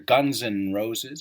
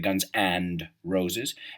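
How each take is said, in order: First: The 'and' is reduced to a short 'n'. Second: The 'and' is said fully with its 'd'. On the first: "The D is kind of silent" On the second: "en vez de"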